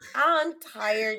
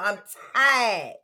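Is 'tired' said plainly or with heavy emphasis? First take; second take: plainly; heavy emphasis. First: Tired is said plainly, without extra emphasis. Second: Tired is said with heavy, drawn-out emphasis.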